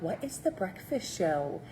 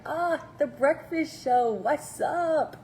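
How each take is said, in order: First: Lightly voiced confused newcomer asking; a mild, puzzled what-is-this question; puzzled new viewer. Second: Higher, slow, delighted greeting of a regular; mock-cheery "ah" like spotting an old friend; excited returning viewer. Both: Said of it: "you're like".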